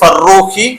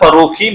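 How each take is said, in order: First: The r sound is held long and doubled. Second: The r sound is short and single. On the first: "double റ എന്നുള്ള രീതിയിലാണ്" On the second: "ഇത് normal ഫറൂഖി"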